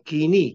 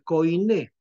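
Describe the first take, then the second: First: The first syllable sounds like 'kee'. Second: The first syllable sounds like 'koy'. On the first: This is how it should be pronounced. The speaker calls it right. "Yo le llamo Kini, porque así se pron- debe pronunciar" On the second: This is the popular way of saying it. The speaker calls it wrong. "Koiné es la forma popular"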